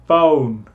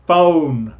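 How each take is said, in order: Both takes have the same delivery.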